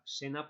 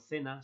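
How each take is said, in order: First: The first sound is an s. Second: The first sound is a th.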